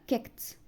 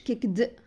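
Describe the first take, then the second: First: The word ends with a t sound. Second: The word ends with a d sound. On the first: The speaker calls it right. "لا كيكت" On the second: The speaker calls it wrong. "ما بقولش كيكد"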